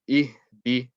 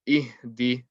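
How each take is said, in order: Both takes have the same delivery.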